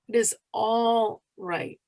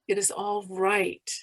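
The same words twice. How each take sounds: First: The stress falls on the word all. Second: The stress falls on the word right. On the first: "emphasize each word separately" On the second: "emphasize each word separately"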